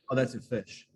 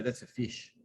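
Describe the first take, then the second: First: "fish" said the New Zealand way, toward fush; New Zealand "Oh, that's a fish"; New Zealand accent. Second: "fish" said the Australian way, toward feesh; Australian "That's a fish"; Australian accent. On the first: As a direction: say "fish" with a Kiwi short u-like vowel. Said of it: "So we would say". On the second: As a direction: say "fish" with an Aussie ee-like vowel. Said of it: "And they'd say". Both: Shown as a demonstration.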